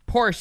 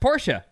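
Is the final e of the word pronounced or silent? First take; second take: silent; pronounced. First: The final e is silent, one syllable. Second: The final e is pronounced as a syllable. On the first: The speaker calls it wrong. "Porsche is slang, short, idiotic" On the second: The speaker calls it right. "pronounced Porsche"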